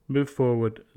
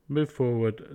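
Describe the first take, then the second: No difference in how they are said.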